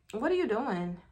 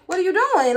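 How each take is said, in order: First: Softer, tentative asking; mild puzzled question. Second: High, loud incredulous question; alarmed demand. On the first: Woman noticing a call being made, soft puzzled question. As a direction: ask it quietly, not yet alarmed. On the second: Woman catching him FaceTiming, loud high demand. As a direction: raise the voice in disbelief. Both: Retold or imitated.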